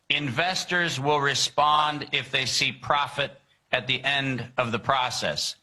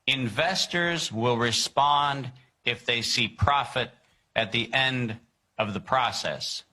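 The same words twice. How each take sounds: First: It is read at a normal pace. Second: It is read at a slow pace.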